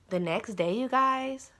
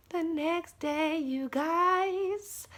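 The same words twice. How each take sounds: First: Said in the usual way. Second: High, slow, drawn-out repeat; dramatic suspense. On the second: Real, not acted. Storyteller teases viewers about what followed, high drawn-out suspense. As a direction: stretch the words high to build suspense.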